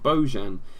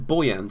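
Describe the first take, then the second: First: The middle consonant sounds like a J. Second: The middle consonant sounds like a Y. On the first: This is how commentators on Spanish football say it. "They've always called him Bojan" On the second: This is how people in England now say it. "Everybody's pronouncing it as Boyan"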